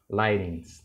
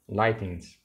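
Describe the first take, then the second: First: The middle t is a quick r-like tap. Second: The middle t is a clear t sound. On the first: "é bem curto o T, vira quase um R" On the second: "Vai ver ingleses falando isso"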